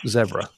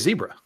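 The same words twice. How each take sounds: First: The word is said with a British pronunciation. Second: The word is said with an American pronunciation. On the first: "the Brits say call zebras zebra" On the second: "But we say zebra"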